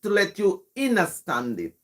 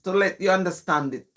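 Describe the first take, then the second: First: "understand" said as "innerstand"; patois "understand". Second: Said in the usual way. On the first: Shown as a demonstration. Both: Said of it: "trying to make sense of it".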